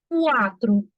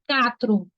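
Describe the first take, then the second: First: It starts 'kwa' with a 'w' sound. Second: It starts 'ka' with no 'w' sound. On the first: The speaker calls it right. "Olha o som do U" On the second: The speaker calls it wrong. "Alguém fala essa palavra assim? ... A pronúncia dessa palavra não é catro"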